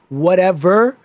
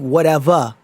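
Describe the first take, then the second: First: The word ends with an 'er' sound. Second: The word ends with an 'ah' sound. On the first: This is how the game's character says it. The speaker calls it wrong. "instead of whatever" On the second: This matches the regional accent. The speaker calls it right. "anything that ends with the E R ends with a A"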